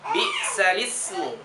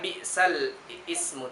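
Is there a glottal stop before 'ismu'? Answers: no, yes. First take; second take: no; yes. First: The words link smoothly with no glottal stop. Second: A glottal stop separates the two words. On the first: The speaker calls it right. "tetapi dia jadi bi'salismu" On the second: The speaker calls it wrong. "bukan um, bacanya bi'sal ismu"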